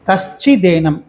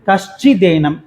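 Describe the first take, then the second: No difference in how they are said.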